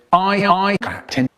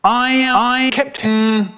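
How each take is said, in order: First: Said in the usual way. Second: Higher and louder, shouted aye aye; the boys shouting back to dad, louder; louder reply. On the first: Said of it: "me and my brother said". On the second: Acted. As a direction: shout it so the captain hears. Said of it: "I can't hear you".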